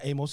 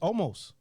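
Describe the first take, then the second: First: The name is said without an L sound. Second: The name is said with an L sound. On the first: The speaker calls it wrong. "it's not Amos" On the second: The speaker calls it right. "It's Olmos"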